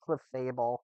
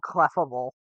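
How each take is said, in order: First: The word is split as cle plus fable. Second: The word is split as clef plus able. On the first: The speaker calls it right. "it's Clefable, because it's meant to be, like, a fable" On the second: The speaker calls it wrong. "I've always said Clefable"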